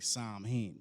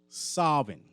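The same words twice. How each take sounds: First: It is pronounced the way it is spelled. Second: It is pronounced the traditional Celtic way. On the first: This is how some people say it. The speaker calls it wrong. "sometimes you'll hear people say Samhain" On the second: This is how it is pronounced in Celtic. The speaker calls it right. "the way they pronounce it is it's a Celtic word"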